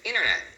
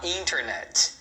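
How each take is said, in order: First: The T sound after the N is dropped. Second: The T sound after the N is pronounced. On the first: "na fala rápida, você vai acabar escutando as pessoas falando assim" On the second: "não é errado você falar internet"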